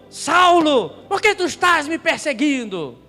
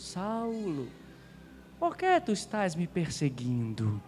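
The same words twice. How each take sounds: First: The tone is harsh and accusing. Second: The tone is gentle and tender. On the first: The speaker is condemning the listener. The speaker calls it wrong. "É diferente de dizer assim ... ele não chegou acusando" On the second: The speaker is showing mercy and love. The speaker calls it right. "Imagina que foi assim. Saulo, meu filho"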